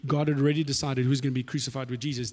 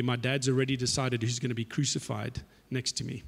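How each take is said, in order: First: Said in the usual way. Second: Softer, lower knowing Jesus voice. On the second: Retold or imitated. Jesus quietly informs James and John, knowing tone. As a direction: break the news quietly, knowingly.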